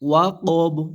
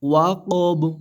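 First: The word ends on a stopped consonant. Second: The same.

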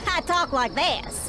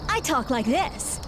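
First: It is said in a Southern accent. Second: It is said in a neutral accent. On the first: This is how they really speak. "When in reality, I talk like this" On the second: This is how they speak on television. "on the news, I talk like this. ... CNN thinks I sound smarter without the accent"

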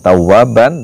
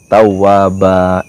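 First: The word ends with an n sound. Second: The word ends in a long vowel, no n. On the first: The speaker calls it wrong. "bukan tawaban" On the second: The speaker calls it right. "tapi tawaba, n-nya dibaca, nggak dibaca, terus ba-nya a-nya dibaca dua"

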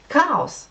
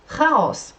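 Both takes have the same delivery.

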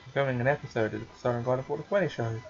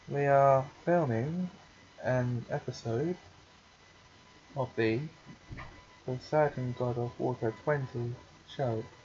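First: The sentence is spoken quickly. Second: The sentence is spoken slowly. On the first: The speaker calls it wrong. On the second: The speaker calls it right.

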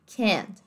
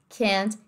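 No difference in how they are said.

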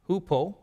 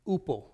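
First: The word begins with an h sound. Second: The word begins without an h sound. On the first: This is the Erasmian pronunciation. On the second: This is the modern and Koine pronunciation.

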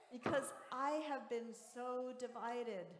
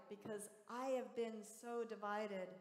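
Both takes have the same delivery.

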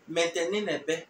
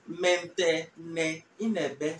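First: The phrase is said fast, words run together. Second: The phrase is said slowly, each word separate.

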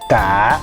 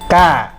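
First: The tone dips down then comes up. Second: The tone goes up slightly higher. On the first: "giống cái dấu hỏi" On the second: "tiếng nó sẽ lên cao một chút"

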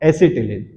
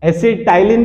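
First: The middle vowel sounds like 'ee'. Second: The middle vowel sounds like 'eye'. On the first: The speaker calls it right. "सही pronunciation है इसका" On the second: The speaker calls it wrong. "एसिटाइलीन भी बोलते हैं"

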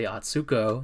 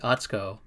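First: The u after ts is fully pronounced. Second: The u after ts is skipped, nearly silent. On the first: The speaker calls it wrong. "So you never say Atsuko" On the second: The speaker calls it right. "You would say Atsuko"

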